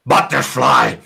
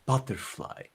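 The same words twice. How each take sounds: First: Loud, slow, forceful angry bark; exaggerated angry shout; really angry. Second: Soft, gentle-volume butterfly; soft, not angry. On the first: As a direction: spit the word out in anger. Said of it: "things also really angry". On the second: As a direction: say the word quietly and easily. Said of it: "You can say it like this". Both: Shown as a demonstration.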